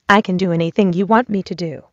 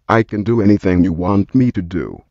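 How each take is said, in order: First: It is said in a female voice. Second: It is said in a male voice.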